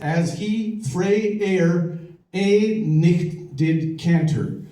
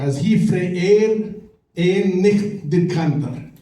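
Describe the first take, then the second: First: It is said in an American accent. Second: It is said in a Scottish accent.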